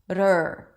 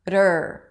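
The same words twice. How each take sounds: No difference in how they are said.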